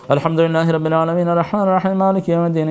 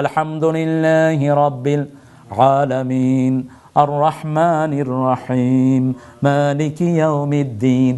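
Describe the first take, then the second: First: It is recited fast, running the verses together. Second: It is recited slowly, pausing after each verse.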